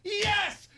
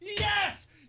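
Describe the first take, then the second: The two takes are said the same way.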